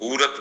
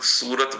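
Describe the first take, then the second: First: The word begins with an h sound. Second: The word begins with an s sound. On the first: This is the rural local form. "Navsari और सूरत के ग्राम्य विस्तार के लोग हूरत बोलते हैं" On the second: This is the common city form. "जैसे हम लोग सूरत बोलते हैं"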